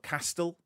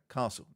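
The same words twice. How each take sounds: First: The first vowel does not sound like 'car'. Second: The first vowel sounds like 'car' without R. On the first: The speaker calls it wrong. "It's not castle" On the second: The speaker calls it right. "the correct pronunciation of castle is castle"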